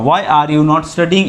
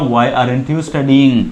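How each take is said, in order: First: The words 'are' and 'not' are said separately. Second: The words 'are' and 'not' are contracted together. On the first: "এভাবেও বলতে পারি" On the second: "fluency বাড়াতে গেলে আমরা short form ব্যবহার করি"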